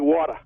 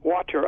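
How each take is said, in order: First: The word ends with an ah sound. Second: The word ends with an r sound. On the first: "I say water. ... make the E R a A" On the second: "I don't say water"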